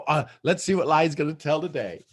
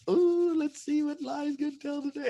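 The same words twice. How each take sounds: First: Said in the usual way. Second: Eager. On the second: Shown as a demonstration.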